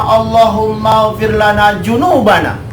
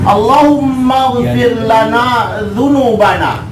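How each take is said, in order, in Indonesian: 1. Kata terakhir dimulai dengan bunyi 'j'. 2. Kata terakhir dimulai dengan bunyi 'dh'. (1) "Kalau dibacanya ... selesai" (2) "Itu huruf dza"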